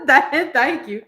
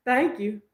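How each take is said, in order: First: Thanks with a laugh in it. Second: Said in the usual way. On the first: Real, not acted. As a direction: chuckle through the thank you.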